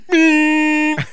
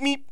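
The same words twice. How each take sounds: First: The meep is long and drawn out. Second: The meep is short and quick. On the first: It is an unfriendly honk. The speaker calls it wrong. "Rather than meep" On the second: It is a friendly nudge. The speaker calls it right. "a quick meep"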